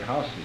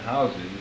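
First: It is pronounced the regional, local way. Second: It is pronounced the general, widespread way. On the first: This is how people in some regions say it. "some parts of the country ... they say houses" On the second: This is how most people say it. "instead of saying houses"

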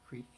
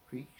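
The two takes are said the same way.

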